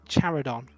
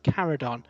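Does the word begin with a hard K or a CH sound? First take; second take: CH; hard K. First: The word begins with a soft CH sound. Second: The word begins with a hard K sound. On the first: The speaker calls it right. "apparently Charodon is the pronunciation" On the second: The speaker calls it wrong. "a C H like Chimera led me to believe that Charodon is pronounced Caradon"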